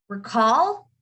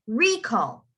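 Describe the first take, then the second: First: "Recall" with "-call" louder and rising; stress on second syllable. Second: "recall" with "RE-" stressed, falling away; stress on first syllable. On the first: Teacher contrasting verb with noun, "Recall" stressed on -call. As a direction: hit the end of "Recall". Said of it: "we emphasize the end". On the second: Teacher contrasting noun with verb, "recall" stressed on RE-. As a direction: hit the start of "recall". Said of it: "emphasize the beginning". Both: Shown as a demonstration.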